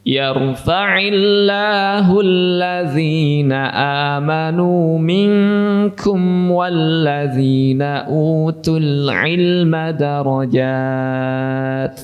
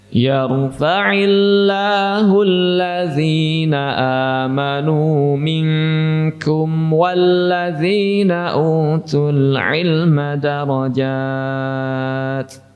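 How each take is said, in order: The two takes are said the same way.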